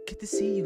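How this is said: It is said in a put-on girl voice.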